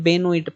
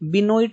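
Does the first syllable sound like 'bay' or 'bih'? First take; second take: bay; bih. First: The first syllable has an 'e' vowel, like 'bay'. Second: The first syllable has a short 'i' vowel. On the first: The speaker calls it right. "इसे बेनोइट पढ़ेंगे" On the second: The speaker calls it wrong. "बिनोइट नहीं पढ़ेंगे"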